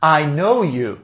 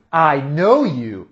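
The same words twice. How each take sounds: First: Said in the usual way. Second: Slow, deliberate I know you. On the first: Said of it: "você fala". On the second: Shown as a demonstration. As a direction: spell it out slowly.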